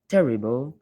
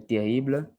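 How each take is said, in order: First: It is pronounced the English way. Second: It is pronounced the French way.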